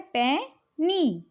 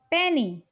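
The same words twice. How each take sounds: First: "पैनी" split in two, पै, long pause, नी; teacher's two-beat "पैनी"; broken into syllables. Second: Said in the usual way. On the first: Shown as a demonstration. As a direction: say "पैनी" very slowly as two separate parts. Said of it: "दो भागों में break कर रहे हैं". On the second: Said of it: "इसे भी हम दो भागों में".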